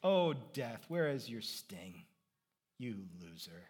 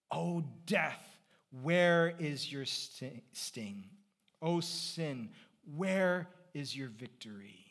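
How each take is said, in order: First: Low, understated mocking taunt; playground taunt. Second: Slow, drawn-out scripture quote; scripture declamation. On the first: Paul taunting death like on a playground, low mocking taunt. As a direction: taunt death like a schoolyard rival, quietly. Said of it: "It's a playground taunt". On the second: Acted. Preacher recalling the verse for the congregation, slow declamation. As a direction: declaim it in slow, separated phrases.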